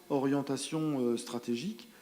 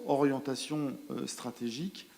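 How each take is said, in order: Both takes have the same delivery.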